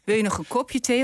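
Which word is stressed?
kopje. The stress falls on the word kopje. The listener might prefer it in a glass. "Of heb je het liever in een glas?"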